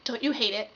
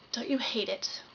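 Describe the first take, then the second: First: Said in the usual way. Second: Softly whispered opener; hushed whispered aside. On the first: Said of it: "plain opener". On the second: Acted. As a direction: whisper it like a secret.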